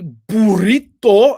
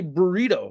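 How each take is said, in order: First: The word is said with a Spanish accent. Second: The word is said with an English accent. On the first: The speaker calls it wrong. "I don't say burrito" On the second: The speaker calls it right. "I say burrito"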